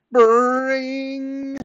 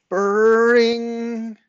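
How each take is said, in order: First: Very high, loud, held doorbell imitation; insistent doorbell ring. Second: High, loud imitated doorbell; doorbell ring. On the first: Neighbour leaves his finger on buzzer, insistent high ringing. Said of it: "This ring was more insistent". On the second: Doorbell startles the boy, high loud ringing imitation. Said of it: "it was only the doorbell". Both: A narrator's reading.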